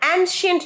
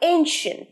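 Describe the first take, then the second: First: The first vowel is a short 'a' sound. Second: The first vowel is a long 'ay' sound. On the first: The speaker calls it wrong. "ancient না, অনেকে ancient বলো" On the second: The speaker calls it right. "উচ্চারণটা কি করলাম? ... a a ancient"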